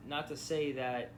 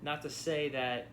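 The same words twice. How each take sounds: The two takes are said the same way.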